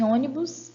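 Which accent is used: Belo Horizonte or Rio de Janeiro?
Belo Horizonte. It is said with a Belo Horizonte accent. "o dialeto um seria o dialeto de B H"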